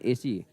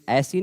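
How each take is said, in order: First: The first vowel is a plain 'e' sound. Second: The first vowel is a broad 'ai' sound. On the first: The speaker calls it right. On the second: The speaker calls it wrong. "ऐसी नहीं"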